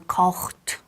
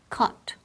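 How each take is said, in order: First: It is said with extra sounds, not plain 'kot'. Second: It sounds simply like 'kot'. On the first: The speaker calls it wrong. "or kocht" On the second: The speaker calls it right. "casi como si fuera K o T"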